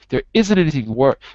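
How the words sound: The strongest stress falls on isn't. The speaker calls it wrong. "the stress of the of the sentence is on isn't"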